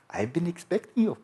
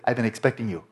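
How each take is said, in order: First: It is said with a put-on German accent. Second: It is said in the speaker's ordinary accent.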